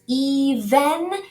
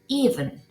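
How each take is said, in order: First: The second vowel is pronounced fully and clearly. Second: The second vowel is reduced or dropped. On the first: The speaker calls it wrong. "no es even" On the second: The speaker calls it right. "sino even"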